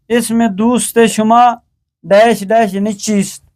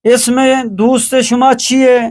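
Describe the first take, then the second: First: Gap filled with full چیست; چیست closed on a clear st; written Persian form. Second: چیئے as chi-ye, no st; spoken Persian form. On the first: Teacher fills the blank, written چیست in full. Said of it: "فارسی نوشتاری". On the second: Teacher reads the exercise, spoken چیئے as chi-ye. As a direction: colloquial open -ye on چیئے, pitched higher. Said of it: "فارسی گفتاری". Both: Shown as a demonstration.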